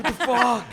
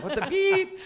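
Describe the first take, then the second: First: High, loud mock rant at the clerks; retold angry yell. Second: Very high, laughing mock outburst with beep; self-censored yell. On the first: [name] retelling yelling at store staff, hammed-up shout. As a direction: replay the tantrum in the fat store. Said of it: "I would yell like it's their fault". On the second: [name] retelling his store tantrum, laughing censored yell. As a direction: redo the rant, swapping the curse for beep. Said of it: "Sorry for cursing".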